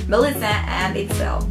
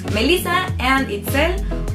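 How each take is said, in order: First: The names are said with English pronunciation. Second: The names are said with Spanish pronunciation.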